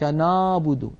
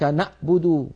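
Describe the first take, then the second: First: The ayn sound is weak, vague and floating. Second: The ayn sound is turned into a glottal stop. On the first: "تمييع صوتها وجعله صوتا عائما لا معنى له" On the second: "يقلبونها همزة أو قريبة من الهمزة"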